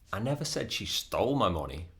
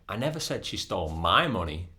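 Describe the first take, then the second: First: The word 'stole' carries the main stress. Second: The word 'my' carries the main stress. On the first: She got the money some other way. "That might mean um, she took it with permission" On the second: She stole someone else's money. "That might mean that she stole somebody else's money"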